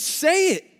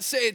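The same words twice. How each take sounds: First: It is said in a challenging, defiant tone. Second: It is said in a plain, neutral tone. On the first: Simon is challenging Jesus, doubting him. The speaker calls it right. "I think it was a little bit more attitude involved" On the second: A polite invitation to speak. The speaker calls it wrong. "when I say it like that, say it, teacher, I don't think it really was like that"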